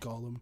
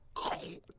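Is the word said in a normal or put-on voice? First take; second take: normal; put-on. First: It is said in his normal voice. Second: It is said in a put-on character voice.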